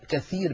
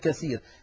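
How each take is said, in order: First: The middle consonant is pronounced as th. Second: The middle consonant is pronounced as s. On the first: The word means a lot. The speaker calls it right. "كثير بالثاء" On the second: The word means broken. The speaker calls it wrong. "يقولها بالسين هكذا"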